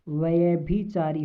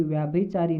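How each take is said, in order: First: व्यभिचारी said with a short vya; व्यभिचारी the right way; correct form. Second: व्याभिचारी said fast with a long vyaa; व्याभिचारी as the error; wrong spelling. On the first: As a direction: stress the short first vowel in व्यभिचारी. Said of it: "व्यभिचारी होता है". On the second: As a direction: rush व्याभिचारी as the mistaken form. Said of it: "व्याभिचारी नहीं होता". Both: Shown as a demonstration.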